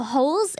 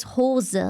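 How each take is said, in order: First: Hose as one syllable, silent e; English pronunciation. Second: Hose in two syllables, ho-zuh; German pronunciation. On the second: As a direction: sound the final e of Hose. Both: Shown as a demonstration. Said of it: "in German is Hose".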